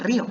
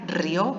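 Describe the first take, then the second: First: The stress falls on the i. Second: The i is unstressed and glides into o. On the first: The speaker calls it right. "en lugar de río" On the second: The speaker calls it wrong. "sonaría río"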